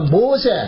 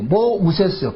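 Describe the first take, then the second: First: The name is said short, ending in a vowel. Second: The name is said long, ending in an s sound. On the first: One who draws others out of the water. "히브리식 발음으로 이야기할 때 모세라 그런다" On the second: One who was drawn out of the water. "애굽식 이름은 모우세스예요"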